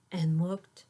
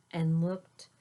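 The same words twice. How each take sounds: The two takes are said the same way.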